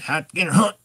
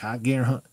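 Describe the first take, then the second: First: The command sounds angry and harsh. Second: The command sounds firm but calm. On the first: The owner is mad the dog won't hunt. "Okay, Dad's mad" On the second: The dog should start hunting. "I'm a little more serious"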